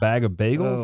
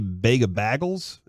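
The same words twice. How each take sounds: First: Bag is said in a plain accent. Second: Bag is said in a Midwestern accent. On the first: This is the usual way to say it. "instead of" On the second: This is how someone from Iowa says it. "my friend lived in like Iowa, and she used to say"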